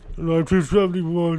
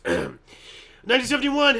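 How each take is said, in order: First: It is said in a put-on imitated voice. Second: It is said in a normal everyday voice. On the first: "read this in his voice" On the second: "in a normal human voice"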